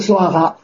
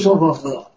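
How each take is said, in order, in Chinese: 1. 中间的音节读 'wa'。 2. 中间的音节读 'po'。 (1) "在古代就读娑婆诃" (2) "现在读娑婆诃"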